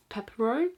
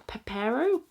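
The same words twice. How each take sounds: First: Pepero stressed on the first syllable, rising. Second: Pepero stressed on the middle syllable, rising. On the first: Vlogger trying a snack name another way, Pepero stressed on PEP. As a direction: say Pepero as PEP-uh-roh, questioning. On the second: Vlogger naming a snack from her friend, Pepero stressed on PAIR. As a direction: say Pepero as puh-PAIR-oh, questioning. Tries two pronunciations of snack name. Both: Real, not acted.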